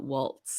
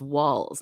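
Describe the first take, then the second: First: The name ends in a ts sound. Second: The name ends in a plain z sound. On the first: The speaker calls it wrong. "not waltz" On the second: The speaker calls it right. "It's walls, not waltz"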